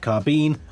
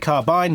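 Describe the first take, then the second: First: It is said with an American pronunciation. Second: It is said with a British pronunciation. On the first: "not carbine" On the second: "I did say carbine, ... I'm English"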